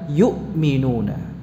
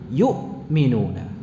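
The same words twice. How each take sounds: First: A clear, heavy catch sounds in the middle. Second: The same.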